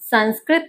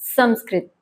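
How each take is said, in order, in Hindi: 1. पहला अक्षर न ध्वनि पर समाप्त होता है। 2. पहला अक्षर म ध्वनि पर समाप्त होता है। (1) "संस्कृत नहीं" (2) "सही उच्चारण है संस्कृत"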